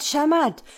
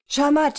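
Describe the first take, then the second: First: Loud high cry, falling at the end; calling out. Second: Loud high excited cry; calling out. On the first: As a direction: shout it again, landing it down. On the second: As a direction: shout it out to the crowd. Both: A narrator's reading. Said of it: "So ging der Ruf durch die Reihen".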